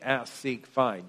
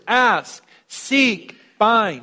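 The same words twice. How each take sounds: First: The three words are said plainly, without emphasis. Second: The three words are said with strong emphasis.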